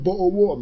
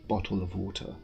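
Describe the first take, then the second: First: The t sounds are dropped. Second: The t sounds are clearly pronounced. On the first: The speaker calls it wrong. "It's very chavvy" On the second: The speaker calls it right. "I do the English where they like pronounce the T"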